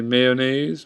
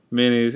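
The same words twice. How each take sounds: First: "mayonnaise" in three syllables, "may-oh-naze"; others' pronunciation. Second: Said in the usual way. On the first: Shown as a demonstration. Vlogger showing how others say it, full pronunciation. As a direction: sound the O in "mayonnaise". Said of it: "a lot of people say". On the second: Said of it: "but I just say".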